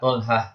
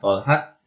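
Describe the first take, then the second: First: The word ends with an h sound. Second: The word ends with a t sound. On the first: The speaker calls it right. "dibaca ha" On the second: The speaker calls it wrong. "bukannya Tolhat, Fatimat, Fatat. Salah ya"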